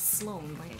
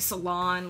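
First: It is one syllable with no extra vowel. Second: An extra vowel splits it into two syllables. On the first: The speaker calls it right. "there's no other vowel. It's Sloan" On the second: The speaker calls it wrong. "Sometimes they call me Salon. Like no"

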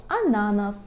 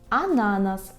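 No difference in how they are said.

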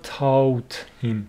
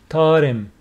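First: The h in him is pronounced strongly. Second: The h in him is pronounced weakly. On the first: The speaker calls it wrong. "It's not taught him" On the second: The speaker calls it right. "here this H is not strongly pronounced"

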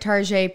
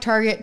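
First: It is said with a fancy French-style ending. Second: It is said the plain English way.

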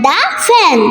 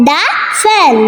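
Both takes have the same delivery.

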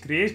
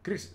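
First: The word is said with two syllables. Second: The word is said with one short syllable. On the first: The speaker calls it wrong. "yo siempre creéis" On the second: The speaker calls it right. "create se pronuncia Chris"

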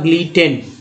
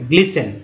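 First: The t sound is pronounced in the word. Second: The t sound is silent in the word. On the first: The speaker calls it wrong. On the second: The speaker calls it right.

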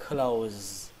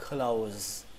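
The two takes are said the same way.

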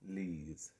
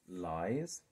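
First: The vowel sounds like the letter E. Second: The vowel sounds like the word eye. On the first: The speaker calls it wrong. "or is it ooh, ees, lees?" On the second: The speaker calls it right. "is this ooh, eyes, lies"

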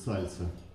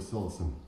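First: The L sound in the word is soft. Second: The L sound in the word is hard. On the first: This is how people say it now. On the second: This is the older way of saying it.

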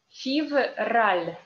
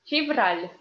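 First: The word is said slowly. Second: The word is said fast.

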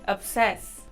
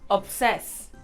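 No difference in how they are said.

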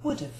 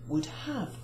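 First: The word 'have' is contracted to a weak sound. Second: The word 'have' is pronounced fully. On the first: "the have becomes a contraction and it sounds exactly the same" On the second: "the correct pronunciation, the correct grammar is would have"

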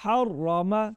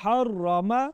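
The two takes are said the same way.

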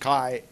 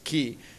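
First: The syllable is pronounced like 'Kai'. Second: The syllable is pronounced like 'key'. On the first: The speaker calls it wrong. "not like the English Kai" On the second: The speaker calls it right. "it's key"

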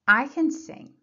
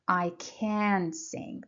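First: The word 'can' is unstressed. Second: The word 'can' is stressed. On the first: The speaker calls it right. "It should be unstressed. So you say, I can sing" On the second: The speaker calls it wrong. "You don't say, I can sing. That's wrong"

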